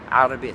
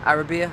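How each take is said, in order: First: The word starts with a throaty consonant. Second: The word starts with a plain vowel. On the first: The speaker calls it right. "just enough to tell the difference between the alif, the a, Arabia, and Ain" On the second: The speaker calls it wrong. "they say تتكلم عربية, Arabia, and it's like, no"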